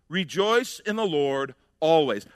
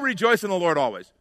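First: It sounds serious and earnest, really meant. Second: It sounds like a casual, offhand platitude.

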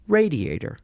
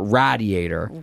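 First: The first A is said the standard way. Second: The first A is said as a hard A. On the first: This is the usual pronunciation. "Sure enough" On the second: This is the pronunciation of a small local area. "refer to it with a hard A or whatever"

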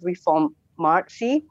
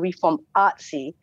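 First: The name is split so 'mart' stands out. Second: The name is split so 'arts' stands out. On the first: The name sounds like it is about the market. The speaker calls it wrong. "you pronounced it as Reformartsi, ... we want to try and not make it about the market" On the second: The name sounds like it is about the arts. The speaker calls it right. "we tend to say like Reformartsi"

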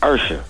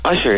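First: The first vowel sounds like 'earth'. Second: The first vowel does not sound like 'earth'. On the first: The speaker calls it right. "it's Usher... Can you say Earth" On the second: The speaker calls it wrong. "it's not [name]"

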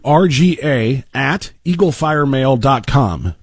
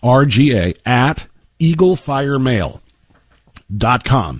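First: It is said at a normal, quicker pace. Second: It is said slowly and deliberately.

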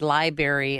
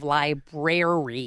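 First: It is said in the speaker's Chicago-accented way. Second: It is said in the standard, unaccented way. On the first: The speaker calls it wrong. "I said library instead of library" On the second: The speaker calls it right. "instead of library"

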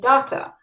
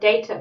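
First: It is said the Australian way. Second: It is said the speaker's original, non-Australian way.

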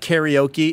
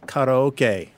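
First: Karaoke is said with an English pronunciation. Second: Karaoke is said with a Japanese pronunciation. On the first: The speaker calls it wrong. "let me just say it's not karaoke" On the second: The speaker calls it right. "It's karaoke. Please, people, let's get it right"

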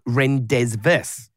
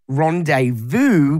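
First: The word is said letter by letter, as spelled. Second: The word is said with its usual pronunciation. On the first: The speaker calls it wrong. "it looks like rendezvous" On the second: The speaker calls it right. "I know that it is rendezvous"

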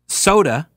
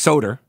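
First: The word ends in a plain vowel sound. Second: The word ends with an added r sound.

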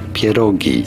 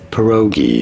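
First: It is said with a Polish pronunciation. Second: It is said with an English pronunciation. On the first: "in Polish, this is said as pierogi" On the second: "In English, however, those are generally called pierogies"

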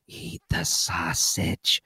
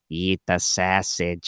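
First: The phrase is said in a whisper. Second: The phrase is said in a loud, brash voice. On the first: "I was trying it like you whisper it" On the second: "doing it like the super fans"

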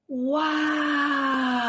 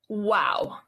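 First: It is said in sincere awe. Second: It is said sarcastically.

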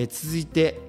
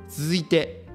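No difference in how they are said.

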